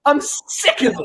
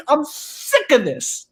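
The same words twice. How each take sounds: First: Breaking into a laughing yell; fed up, half-laughing, half-shouting; a laughing mock outburst; laughing exasperated shout. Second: Said in the usual way. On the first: Real, not acted.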